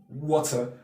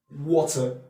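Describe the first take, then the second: The two takes are said the same way.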